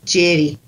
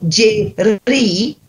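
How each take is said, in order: First: The r has only a very slight trill. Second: The r is rolled with a strong trill. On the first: The speaker calls it right. "It's a very, very slight trill" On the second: The speaker calls it wrong. "people think that you've got to go on the R words. You don't"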